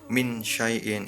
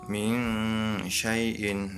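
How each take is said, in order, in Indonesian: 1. Bunyi n dibaca penuh dan jelas. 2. Bunyi n dibaca samar dan sedikit berdengung. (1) "Kalau jelas dibaca min syai'in, itu tidak benar" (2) "yang benar"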